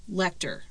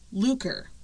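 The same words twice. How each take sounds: First: Lecter said as LEK-ter; variant name pronunciation. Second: Luker said as LOO-ker; variant name pronunciation. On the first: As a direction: say "Lecter" with a short e and kt. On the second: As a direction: say "Luker" with a long oo and a hard k. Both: Shown as a demonstration. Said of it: "they pronounce it different".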